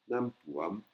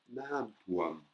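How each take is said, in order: Both takes have the same delivery.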